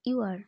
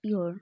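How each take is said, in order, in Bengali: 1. দুটো শব্দই আলাদাভাবে পুরোপুরি বলা হয়। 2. শব্দ দুটো জুড়ে একটি ছোট সিলেবল হয়ে যায়।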